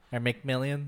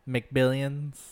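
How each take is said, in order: First: Said in the usual way. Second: McBillions, with a B instead of an M; wrong name. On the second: Real, not acted. Telling a friend what she's watching, slipping into McBillions. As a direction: stumble into McBillions by mistake. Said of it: "you said McBillions last time".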